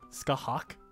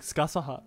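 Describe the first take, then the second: First: It is said Irish-style, shorter, ending in -hak. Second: It is said with Japanese-style syllables, ending in -saha. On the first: "the proper pronunciation is like Skahak" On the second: "the Japanese call it like Skasaha"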